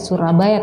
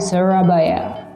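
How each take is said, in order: First: It is said with an Indonesian pronunciation. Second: It is said with an English-speaker pronunciation. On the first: "tidak Surabaya" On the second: "diucapkan oleh native speaker, orang Inggris ... dia bilangnya ... tapi Surabaya"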